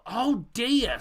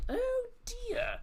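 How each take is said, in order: First: Said in the usual way. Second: "Oh" leaps very high in mock alarm; hammed-up dismay. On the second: Host mocks alarm at Celtic's injured attackers. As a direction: squeal it like a scandalised aunt.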